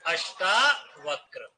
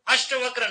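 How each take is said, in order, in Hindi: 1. दूसरा स्वर लंबा aa है। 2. दूसरा स्वर छोटा a है। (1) "अष्टावक्र ऐसे आएगा" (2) "अष्टवक्र नहीं"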